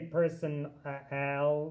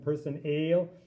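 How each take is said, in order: First: The last syllable has a full short A vowel. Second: The last syllable has a long A vowel. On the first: "we don't say person al" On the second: "it doesn't sound like a long person ale"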